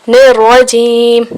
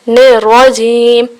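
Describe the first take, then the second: No difference in how they are said.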